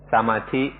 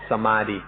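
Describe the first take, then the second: First: The word is said with Thai pronunciation. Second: The word is said with foreign, Western pronunciation. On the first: "Thai pronunciation is" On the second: "often you'll hear foreigners pronounce it"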